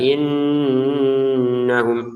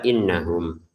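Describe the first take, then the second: First: The nasal hum is held over two beats. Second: The nasal hum is held under two beats. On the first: "lebih dari dua harokat" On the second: "kurang dari dua harokat dengungannya"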